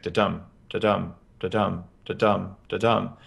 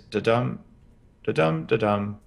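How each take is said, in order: First: Each da-dum spaced exactly evenly, like a metronome; even heartbeat rhythm. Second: Slow da-dum with gaps that wander a little; uneven relaxed heartbeat. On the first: Showing the host a stressed animal's even heartbeat rhythm. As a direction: tap out a stiff, perfectly regular heartbeat. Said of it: "a perfectly even heartbeat". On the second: Showing the host a relaxed animal's uneven, slower heartbeat. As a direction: let the beats drift apart loosely. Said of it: "there's a different spacing between them". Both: Shown as a demonstration.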